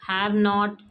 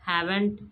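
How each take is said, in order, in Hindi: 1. दोनों शब्द अलग-अलग, पूरे रूप में बोले गए हैं। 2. दोनों शब्द मिलकर एक शब्द बन गए हैं। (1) "हैव नॉट हैवेंट" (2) "हैव नॉट हैवेंट"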